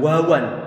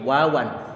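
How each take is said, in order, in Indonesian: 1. Suaranya tebal dan berat. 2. Suaranya tipis dan ringan.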